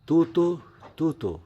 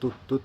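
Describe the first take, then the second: First: Each word ends with an added 'o' vowel. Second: Each word ends on the consonant 't'. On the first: The speaker calls it wrong. "এরকম হবে না" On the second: The speaker calls it right. "তুতো হবে না"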